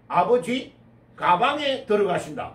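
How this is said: The break comes before 가, after 아버지.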